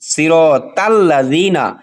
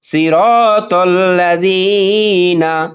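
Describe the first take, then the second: First: The t is light, followed by a clear a. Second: The t is heavy, followed by a rounded o-like vowel. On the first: The speaker calls it wrong. "আমরা অনেকেই এভাবে উচ্চারণ করে থাকি" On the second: The speaker calls it right. "এজন্য আমরা খেয়াল করব সিরতল"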